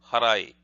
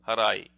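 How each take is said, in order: The two takes are said the same way.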